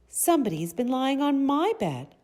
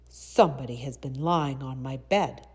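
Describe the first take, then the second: First: It is said in a sweet, soft voice. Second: It is said in a rough, gruff voice.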